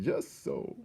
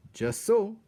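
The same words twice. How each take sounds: First: Breathed quietly with a smile; soft smiling whisper. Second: High, loud satisfied exclamation; pleased Threadmaster. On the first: Threadmaster repeating it to himself, soft whispered contentment. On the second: Threadmaster watching the happy feast, high proud approval. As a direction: pronounce it with proud delight. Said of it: "said Threadmaster Hovis, smiling". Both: A narrator's reading.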